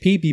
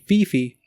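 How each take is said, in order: First: The name begins with a P sound. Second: The name begins with an F sound. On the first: This is how the locals say it. "So they say P P" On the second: This is how it is supposedly really said. "but actually it's actually Fifi"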